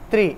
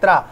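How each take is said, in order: First: The syllable ends with an 'ee' vowel. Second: The syllable ends with an 'ah' vowel. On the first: The speaker calls it right. "री की ध्वनि सुनाई देगी" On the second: The speaker calls it wrong. "बहुत सारे लोग बोलते इसको त्रा बोलते हैं"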